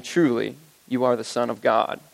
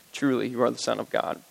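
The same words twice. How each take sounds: First: Low, reverent declaration. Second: Softer, lower echo of the confession; hushed repeat. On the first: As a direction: say it as the disciples' awed confession. Worshippers' words in scripture. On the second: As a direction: let it fall to an awed hush. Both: Acted.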